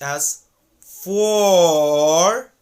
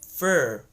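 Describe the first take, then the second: First: The vowel is a long, full aw sound. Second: The vowel is a short, reduced uh sound. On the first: "if you elongate the word a little bit by saying it as for" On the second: "the word for gets reduced to fur"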